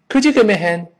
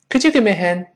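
The two takes are said the same way.

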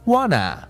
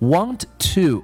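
First: The words merge into a reduced form. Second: Both words are said in full.

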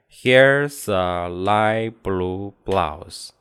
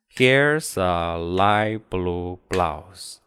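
No difference in how they are said.

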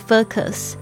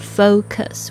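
First: The O vowel is short and reduced. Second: The O vowel is full and complete. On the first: The speaker calls it wrong. "而不是focus" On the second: The speaker calls it right. "那个O 要发得很完整"

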